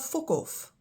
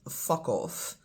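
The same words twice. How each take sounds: First: The first vowel is rounder, like an o. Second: The first vowel is open and unrounded. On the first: "just a little bit more round in pronunciation" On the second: "In English, you have fuck off"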